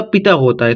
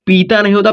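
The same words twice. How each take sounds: First: पिता with a short i, lower; correct short vowel. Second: पीता with a long ee; wrong long vowel. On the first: Teacher giving pupils the right reading, short-vowel पिता. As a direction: say पिता as "pita", quick first syllable. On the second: Teacher showing pupils the wrong reading, long-vowel पीता. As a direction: stretch the first vowel of पीता, "peeta". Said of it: "यहाँ पर पीता नहीं होता". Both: Shown as a demonstration.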